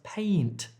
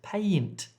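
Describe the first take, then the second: The two takes are said the same way.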